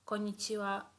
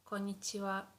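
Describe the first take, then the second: No difference in how they are said.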